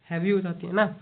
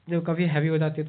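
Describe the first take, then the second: First: A light demo of a voice worn heavy from shouting; heavy strained voice. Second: Said in the usual way. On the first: Shown as a demonstration. Teacher demonstrating to students a voice gone heavy from shouting, lightly strained. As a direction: let the word sound rough and worn. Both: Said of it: "ज़्यादा चिल्लाने से voice heavy हो जाए ना".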